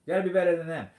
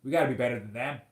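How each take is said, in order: First: Louder insistence. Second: Said in the usual way. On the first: Real, not acted. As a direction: repeat it louder, leaning on better. Repeats the appeal with more force.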